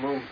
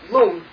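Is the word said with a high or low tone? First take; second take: low; high. First: The word is said on a low tone. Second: The word is said on a high tone. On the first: It means word or oral transmission. "this is the low tone lung" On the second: It means wind or psychic energy. "high tone"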